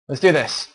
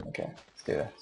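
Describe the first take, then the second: First: Loud fired-up rallying cry; pumped-up shout. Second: Said in the usual way. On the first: Real, not acted. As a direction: hype yourself up, loudly. Psyching up.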